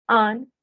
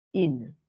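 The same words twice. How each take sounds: First: AN loud, as nasal French "un"; nasalized masculine. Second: IN lower, as French "une"; denasalized feminine. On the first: Teacher drilling the masculine with students, loud nasalized AN. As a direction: push AN through the nose as one vowel. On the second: Teacher drilling the feminine with students, lower denasalized IN. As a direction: drop pitch on IN, rounded u and clear N. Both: Shown as a demonstration. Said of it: "sí la voy a desnasalizar".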